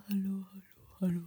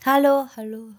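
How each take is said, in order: First: Fading whispered echo of hallo; canyon echo. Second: Loud calls into the void; canyon echo. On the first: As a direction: let hallo fade away like an echo. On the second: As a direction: call out to hear the echo. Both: Pretend.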